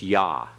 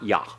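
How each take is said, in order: First: The syllable ends open without being clipped. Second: The syllable ends abruptly, clipped short. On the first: The speaker calls it right. "It's Yah" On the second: The speaker calls it wrong. "not Yah"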